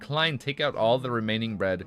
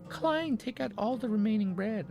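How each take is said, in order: First: It is read in a plain voice. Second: It is read in a put-on accent.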